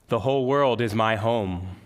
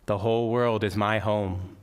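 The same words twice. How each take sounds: First: It is said in a loud voice. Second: It is said at normal speaking volume. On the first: "first in a loud speaking voice" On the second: "In a normal speaking voice"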